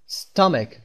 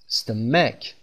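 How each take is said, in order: First: The stress is on the first syllable. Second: The stress is on the second syllable. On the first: The speaker calls it right. "ولی من میگم استامک" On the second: The speaker calls it wrong. "اگر این خط کوچیک روی م بود، ... من باید میخوندم استمک"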